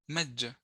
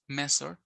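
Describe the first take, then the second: First: The middle consonant is a j sound. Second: The middle consonant is an s sound. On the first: "or j" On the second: "or another phoneme s"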